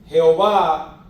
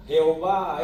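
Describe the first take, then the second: First: Jehová called out loud and strong, falling at the end; saying Jehová. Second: Said in the usual way. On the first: Shown as a demonstration. Preacher naming God's name to the church, proclaiming it loudly. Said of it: "es la latinización". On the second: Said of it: "es la latinización al".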